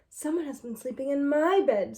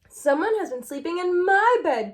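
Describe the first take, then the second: First: It is said in a middle-sized voice. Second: It is said in a wee, small voice.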